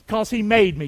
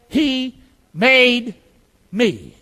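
First: Said in the usual way. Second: "He... made... me" slowly, each word set apart; say-along. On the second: Shown as a demonstration. Preacher leads congregation in repeating, spaced-out words. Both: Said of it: "Can you say that?".

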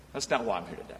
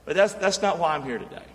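First: Dropped low and soft, almost to himself; quiet repeat. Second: Said in the usual way. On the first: Acted. Preacher repeating to the congregation, low and soft. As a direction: let the repeat fall much lower and softer.

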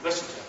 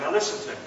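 First: Much softer, near-whispered "Listen to me"; softer still, an intimate plea to listen; hushed repeat. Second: Said in the usual way. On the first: Acted. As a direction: drop it almost to a hush to pull them close.

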